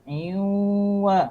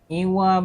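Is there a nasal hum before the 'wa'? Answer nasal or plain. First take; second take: nasal; plain. First: It has a held nasal hum before 'wa'. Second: It is said simply, with no nasal hum. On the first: The speaker calls it right. "Bila sambung kena dengung" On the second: The speaker calls it wrong. "tidak semudah iwa macam tu"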